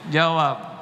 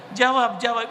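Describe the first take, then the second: First: Said in the usual way. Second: Insistent demand. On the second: Shown as a demonstration. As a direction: push them hard to answer.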